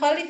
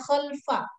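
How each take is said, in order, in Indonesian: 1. Ada vokal yang terdengar di antara l dan f. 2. Huruf l langsung menyambung ke f, tidak ada vokal. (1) "Jangan khalif ya" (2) "lamnya sukun"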